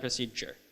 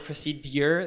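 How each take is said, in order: First: The d and y blend into j. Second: The d and y sounds stay separate. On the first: "than procedure" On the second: "It's harder to say procedure"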